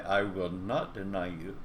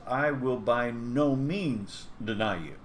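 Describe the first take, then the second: First: Said in the usual way. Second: Slow, weighty, with "no" punched; emphatic insistence. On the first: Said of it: "Peter does not merely say". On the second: Shown as a demonstration. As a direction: lean hard on "no" in "by no means". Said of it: "He emphatically insists".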